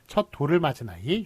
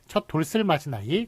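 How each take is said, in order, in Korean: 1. s 소리가 조사와 연결되지 않습니다: doreul. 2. s 소리가 조사와 연결됩니다: dolseul. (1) "이런 식으로 발음하기 때문에" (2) "그렇게 발음하는 경우 없고"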